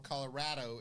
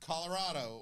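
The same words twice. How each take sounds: First: Colorado is said the way local residents say it. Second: Colorado is said in the speaker's own usual way.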